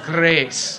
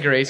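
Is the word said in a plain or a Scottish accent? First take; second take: Scottish; plain. First: The word is said in a Scottish accent. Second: The word is said in a plain accent. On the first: "he says grace" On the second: "he doesn't say grace"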